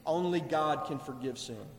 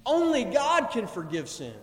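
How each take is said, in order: First: Low, soft, knowing statement; understated and assured, dropped in pitch; calm agreement. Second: Firm acted protest at full voice; insistent, accusing declaration; scribes' objection. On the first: Acted. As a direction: say it quietly, sitting back, as confirmation. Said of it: "Jesus is sitting back and saying". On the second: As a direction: state it as an indignant objection. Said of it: "they're standing off to the side and they're saying".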